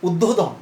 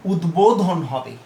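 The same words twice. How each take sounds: First: উদ্বোধন said as "uddodhon" with a doubled d and no b; wrong pronunciation. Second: উদ্বোধন said slowly as "udbodhon" with a clear b; correct pronunciation. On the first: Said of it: "পূর্ববর্তী নিয়ম অনুযায়ী এটির উচ্চারণ কিন্তু". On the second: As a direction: model উদ্বোধন carefully as "udbodhon", b sounded. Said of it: "যেহেতু এটি সন্ধিবদ্ধ শব্দ". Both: Shown as a demonstration.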